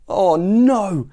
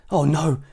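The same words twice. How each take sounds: First: Higher, louder horrified "oh no"; gasped dismay. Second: Mild, contained "oh no"; gasped dismay. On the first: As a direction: cry it out in mounting horror. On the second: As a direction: let out a first small dismayed gasp. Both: A narrator's reading. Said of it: "he gasped".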